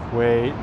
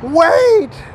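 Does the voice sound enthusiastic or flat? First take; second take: flat; enthusiastic. First: The word is said with little energy. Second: The word is said with lots of energy. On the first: The speaker calls it wrong. "Why would anyone wait if you go like" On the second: The speaker calls it right. "Be like, wait! That's how you do it"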